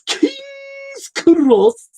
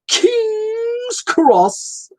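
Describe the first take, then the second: First: The words are spoken with a lisp. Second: The words are spoken without a lisp.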